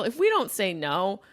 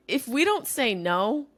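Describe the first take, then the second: First: Rising on "we"; "we" stressed, rest quick. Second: Rising on "don't", drawn out slowly; stress on DON'T. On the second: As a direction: lean into "don't" with a rise. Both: Shown as a demonstration.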